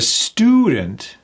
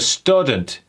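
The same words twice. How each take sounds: First: The first vowel is a long ooh sound. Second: The first vowel is a short uh sound. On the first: The speaker calls it right. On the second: The speaker calls it wrong.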